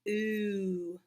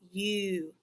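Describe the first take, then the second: First: The vowel is a plain oo sound. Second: The vowel begins with a y glide. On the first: "sometimes it gets cut short, like in flew. It just says oo" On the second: "sometimes U says its whole name, like in pupil"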